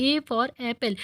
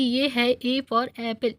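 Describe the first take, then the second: First: Said in the usual way. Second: Slow, spelled-out "A for apple"; teacher's slow demo. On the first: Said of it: "Avani के पीछे पीछे बोलता है". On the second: Shown as a demonstration. Teacher reading "A for apple" slowly for the student to repeat. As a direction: say "A for apple" slowly for him to copy. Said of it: "मेरे पीछे पीछे बोलो तुम".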